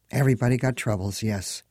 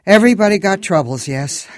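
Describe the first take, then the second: First: Said in the usual way. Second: Put-on loud, high accented Everybody got troubles; Moldovan accent. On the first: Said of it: "she responded". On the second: A narrator's reading. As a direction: Moldovan cabbie stressing Everybody. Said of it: "This one had an accent".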